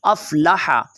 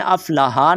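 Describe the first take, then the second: First: अफ़लहा with a strong throaty h; breathy pharyngeal h in अफ़लहा; careful Arabic Haa. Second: अफ़लहा ending in a plain light h; unconstricted h in अफ़लहा; soft H mistake. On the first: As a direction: push the last हा of अफ़लहा from the throat. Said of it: "इस हा को आपने ख्याल के साथ पढ़ना". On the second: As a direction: say अफ़लहा with an ordinary h, "aflaha". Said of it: "अफ़लहा नहीं पढ़ना". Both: Shown as a demonstration.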